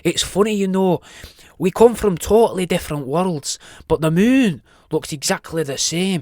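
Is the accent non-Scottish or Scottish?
Scottish. It is spoken in a Scottish accent.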